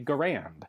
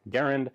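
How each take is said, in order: First: The stress is on the second syllable. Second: The stress is on the first syllable. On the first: This is how most people in the country say it. "Typically in the United States, you will hear this referred to as a" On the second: This is how the inventor said his own name. "accent on the first syllable"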